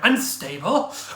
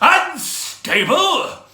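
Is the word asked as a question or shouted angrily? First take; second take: question; shouted. First: It is asked questioningly, rising. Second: It is shouted in an offended tone.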